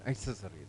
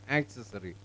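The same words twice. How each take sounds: First: The stress is on the second syllable. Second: The stress is on the first syllable. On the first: The speaker calls it right. "That becomes accessory" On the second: The speaker calls it wrong. "we have a tendency to read this as accessory"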